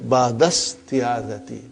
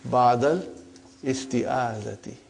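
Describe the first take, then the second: First: The two words run together without a glottal stop. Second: A separate glottal stop starts the second word. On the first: The speaker calls it right. "when you become very proficient, then you will, inshallah, won't pronounce Hamdatul Wasal" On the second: The speaker calls it wrong. "for simplicity, I still feel that while we are learning"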